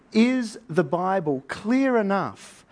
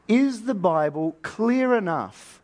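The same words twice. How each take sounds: The two takes are said the same way.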